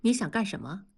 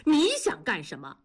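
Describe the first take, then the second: First: Mildly icy, restrained challenge; cold question. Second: Higher-pitched, indignant challenge; angry retort. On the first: Wife confronts husband just home, coldly. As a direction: ask it coldly, voice held level. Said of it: "冷冷地问". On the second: Husband whirls round on his wife, angry. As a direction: throw the question back angrily. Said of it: "猛地回过身怒道". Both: A narrator's reading.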